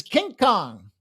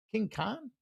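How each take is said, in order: First: Said in the usual way. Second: King Kong? asked back with a rising, doubtful lift; puzzled echo. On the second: Real, not acted. Echoing a viewer's odd pick, puzzled and rising. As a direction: repeat the pick like you can't believe it.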